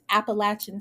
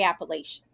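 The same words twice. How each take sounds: First: It is said with a southern US pronunciation. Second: It is said with a northern US pronunciation. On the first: This is how local southerners say it. "people are telling me it's Appalachian State" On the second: The speaker grew up in the north. "Now I'm from the north. I say Appalachian"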